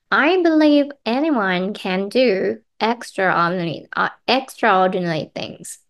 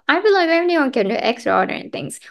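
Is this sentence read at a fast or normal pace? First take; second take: normal; fast. First: The sentence is read at a normal pace. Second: The sentence is read at a fast pace. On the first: "じゃあ3 回目いきますよ。" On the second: "早読みいきますよ。"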